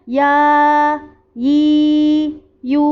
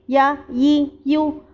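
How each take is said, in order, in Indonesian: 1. Vokal diucapkan panjang. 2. Vokal diucapkan pendek. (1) "kalau panjang" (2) "kalau pendek"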